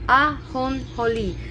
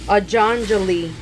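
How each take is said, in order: First: The J is said like an H sound. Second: The J is said like an English J. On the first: The speaker calls it right. "the J is an H sound" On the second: The speaker calls it wrong. "if you would pronounce it in English, it's of course incorrect"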